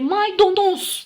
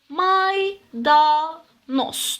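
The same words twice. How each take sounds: First: The vowel after the d is an o. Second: The vowel after the d is an a. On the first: The speaker calls it wrong. "Maydanoz dersek eğer yanlış söylemiş oluruz. Bu o değil" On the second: The speaker calls it right. "Bunun da doğrusu maydanoz. a olacak"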